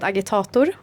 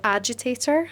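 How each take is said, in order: First: The name is pronounced with Swedish sounds. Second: The name is pronounced with English sounds. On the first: "I wouldn't have got it from the Swedish pronunciation" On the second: "I guess in English"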